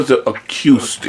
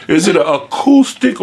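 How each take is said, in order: First: "acoustic" said as a-CUE-stic. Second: "acoustic" said as a-COO-stic. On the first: Host questioning his own pronunciation, "acoustic" as a-CUE-stic. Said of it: "why did I call it acoustic". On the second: Host asking how it is pronounced, "acoustic" as a-COO-stic. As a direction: say "acoustic" with a plain oo, like cool. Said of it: "or is it acoustic". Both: Shown as a demonstration.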